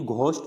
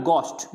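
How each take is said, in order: First: घोस्ट with an aspirated gh; घोस्ट, H wrongly pronounced; sounded H. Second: घोस्ट with a plain g, no puff of h; hard unaspirated g opening घोस्ट; silent H. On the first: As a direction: puff an h after the g in घोस्ट. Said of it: "नहीं बोलना". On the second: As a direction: say घोस्ट as "gost". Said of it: "यानी घोस्ट नहीं बोलना". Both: Shown as a demonstration.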